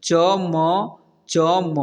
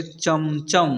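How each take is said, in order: First: चम, चम as long separate letters; चम, चम broken up letter by letter; spelled out letter by letter. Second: Said in the usual way. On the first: Shown as a demonstration. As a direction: sound out each letter of चम, चम slowly. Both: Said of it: "इसे पढ़ेंगे".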